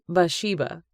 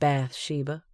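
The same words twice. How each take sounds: First: The 'th' sound is dropped from the name. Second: The 'th' of bath is drawn out clearly. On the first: The speaker calls it right. "with the T being silent" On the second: The speaker calls it wrong. "his tongue hanging on the word bath"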